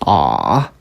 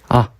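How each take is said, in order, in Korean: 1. 가장 낮은 높이에서 유지돼요. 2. 가볍게 소리내고 높낮이 변화는 없어요. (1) "가장 낮은 높이로 발음한다" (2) "가볍게 그냥 툭 하고 읽어주시면 돼요"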